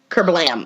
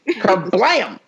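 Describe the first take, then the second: First: It is said flatly, without emphasis. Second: It is said with loud, excited emphasis.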